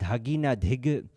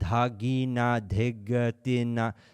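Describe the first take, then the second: First: The syllables are recited with varied, modulated pitch. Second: The syllables are recited on a flat, monotonous pitch. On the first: The speaker calls it right. "I'm reading it in a way where I can remember the modulation" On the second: The speaker calls it wrong. "Don't don't be so monotonous with it"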